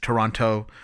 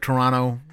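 First: The second t sound is clearly pronounced. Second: The second t sound is dropped. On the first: This is how outsiders say it. "or for our Americans" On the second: This is how locals say it. "We don't see the extra T"

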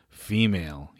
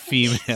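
First: It is said in a normal speaking voice. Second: It is said in a put-on Ferengi-style voice.

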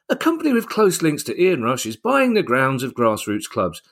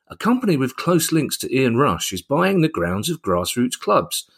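First: The sentence is read in a bright, upbeat tone. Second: The sentence is read in an ominous, suspicious tone. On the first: The purchase is good news. "That sounds great" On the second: The purchase is something to worry about. "It sounds a bit sinister"

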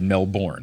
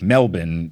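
First: The ending is said in full, as spelled. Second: It is said in an Australian-style accent without R. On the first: "I was pronouncing it the way you spell it" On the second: "that just sounds like I'm doing a bad accent"

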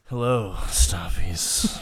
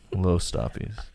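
First: It sounds sultry and sexy. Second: It sounds crushed by impending doom.

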